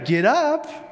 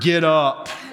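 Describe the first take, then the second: First: It is said in a cheerful, upbeat tone. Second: It is said in a stern, strict tone. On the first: "in a very cheerful, positive way" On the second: "very stern"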